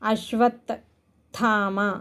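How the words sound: The word breaks after "ashvat" before "thama".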